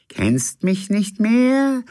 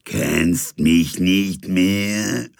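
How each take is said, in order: First: Much higher, slow ghost voice; a second spectre, pitched high; another ghost. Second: Very slow, thin ghostly murmur; papery ghost voice. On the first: Second ghost confronts the captain, high and slow. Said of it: "sagte eine andere Stimme". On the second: First ghost haunts the sleepless captain, slow and papery. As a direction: drag it out like a dead voice. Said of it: "schien er eine papierne Stimme flüstern zu hören". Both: Acted.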